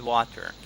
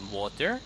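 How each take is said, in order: First: WATER with an open A vowel. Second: WATER with a rounded O vowel. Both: Shown as a demonstration. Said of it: "the O and A".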